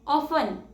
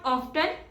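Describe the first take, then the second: First: The t sound is silent. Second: The t sound is pronounced. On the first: The speaker calls it right. "T is silent here" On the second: The speaker calls it wrong. "It's not often"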